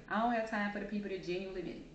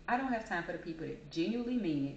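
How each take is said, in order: Both takes have the same delivery.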